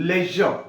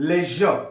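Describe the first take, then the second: No difference in how they are said.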